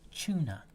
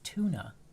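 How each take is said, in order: First: The word begins with a ch sound. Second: The word begins with a plain t sound. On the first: "T C H" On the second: "tuna with a T"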